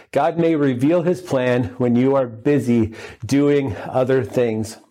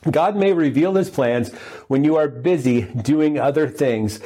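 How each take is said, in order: First: Slowed right down for emphasis; slower, emphatic repeat. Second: Said in the usual way. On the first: Shown as a demonstration. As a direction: repeat the point slowly so it sinks in. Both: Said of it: "Number one".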